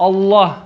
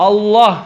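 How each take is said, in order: No difference in how they are said.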